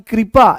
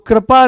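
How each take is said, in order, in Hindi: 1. पहला अक्षर 'kri' जैसा बोला जाता है। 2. पहला अक्षर 'kri' जैसा नहीं बोला जाता है। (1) "ये क्री है" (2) "तो कृपा नहीं"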